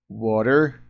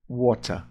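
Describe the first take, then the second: First: American "Water" with a tapped t and final r; American accent. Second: British "water" with a clear hard t and no final r; British-accented "water", ending in "ah". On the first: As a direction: say "Water" the American way, like WAH-der. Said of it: "o sotaque americano é mais parecido com isso". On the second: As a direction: say "water" the British way, like WOH-tah. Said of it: "Já o inglês britânico é falado". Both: Shown as a demonstration.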